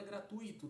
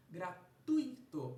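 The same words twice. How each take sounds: First: Said in the usual way. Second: Gratuito stretched out slowly and loud, leaning on the U; slow teaching voice, leaning hard on the U in Gratuito; drawn out gratuito. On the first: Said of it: "Sílaba do meio apresentando um ditongo". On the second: Shown as a demonstration. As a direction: spell out Gratuito slowly, making the U strong. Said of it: "um U mais forte do que um I".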